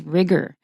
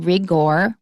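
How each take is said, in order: First: The second vowel sounds like 'er'. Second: The second vowel sounds like a full 'or'. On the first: The speaker calls it right. "We pronounce the O like er" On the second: The speaker calls it wrong. "Don't say rigor"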